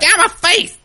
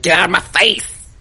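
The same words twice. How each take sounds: First: It is said at a higher pitch. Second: It is said at a lower pitch.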